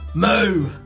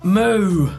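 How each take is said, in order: First: It is short, gruff and aggressive. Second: It is smoother, less gravelly and calm.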